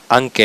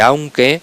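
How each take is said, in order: First: The first syllable has a single vowel. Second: The first syllable has a full diphthong. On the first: The speaker calls it wrong. "reducimos un diptongo a una sola vocal" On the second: The speaker calls it right. "en vez de aunque"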